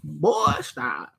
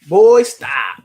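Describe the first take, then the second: First: It is said in a deep, put-on voice. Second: It is said in his ordinary speaking voice.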